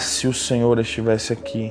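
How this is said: It is said in a sorrowful, trusting tone. The speaker regrets the absence but trusts the listener's power. "que pena que o Senhor não estava aqui"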